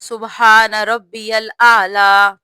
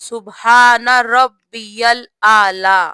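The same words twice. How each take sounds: The two takes are said the same way.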